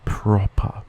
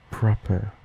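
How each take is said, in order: First: Proper ending in a pure "ah", Australian; Australian schwa ending. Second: Proper with a British "er" ending; British accent. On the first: Listing Australian schwa examples, open "ah" ending. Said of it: "like in the Australian accent". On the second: Contrasting Australian with British accent, "er" ending. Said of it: "In a common British accent". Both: Shown as a demonstration.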